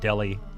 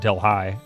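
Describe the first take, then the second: First: The name sounds like the word 'deli'. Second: The name does not sound like 'deli'. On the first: "I've always heard it pronounced Delhi, like a deli sandwich" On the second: "I don't think I've ever heard anybody pronounce it Delhi"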